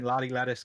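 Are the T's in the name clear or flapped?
flapped. American accent, with soft flapped T sounds.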